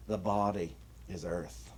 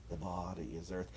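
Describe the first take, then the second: First: Said in the usual way. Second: Much softer, almost to yourself; quiet repeat. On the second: Shown as a demonstration. Minister repeating the point to the congregation, much softer. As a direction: let the repeat sink in, softly.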